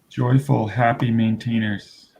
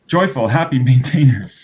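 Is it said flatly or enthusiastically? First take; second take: flatly; enthusiastically. First: It is said in a flat, plain way. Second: It is said with more enthusiasm.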